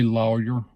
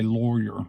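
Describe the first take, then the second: First: Lawyer as LOH-yer; own pronunciation. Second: Lawyer as LAW-er; father's pronunciation. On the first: Shown as a demonstration. Speaker showing their own way, lawyer as LOH-yer. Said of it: "I say lawyer". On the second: Retold or imitated. Speaker imitating daddy's way, lawyer as LAW-rer. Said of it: "I've heard him say lawyer".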